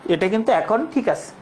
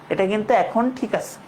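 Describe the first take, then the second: The two takes are said the same way.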